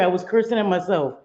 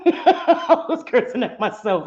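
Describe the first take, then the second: First: Said in the usual way. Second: Slow, laughing protest. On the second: Real, not acted. Streamer defending herself to viewers, laughing. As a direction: protest through real laughter.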